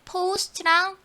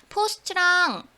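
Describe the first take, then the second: No difference in how they are said.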